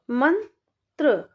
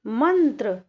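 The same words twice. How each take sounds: First: मंत्र stretched slowly, nasal न drawn out; slow sounding out. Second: Said in the usual way. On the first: Shown as a demonstration. Teacher stretching मंत्र slowly for children. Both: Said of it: "तो कैसे पढ़ेंगे?".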